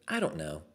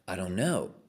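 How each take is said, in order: First: It sounds flat and indifferent. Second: It sounds curious and searching. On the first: The person is not even looking. The speaker calls it wrong. "Most people have the inflection that just goes" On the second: The person is searching for an answer. The speaker calls it right. "You could have an inquisitive response"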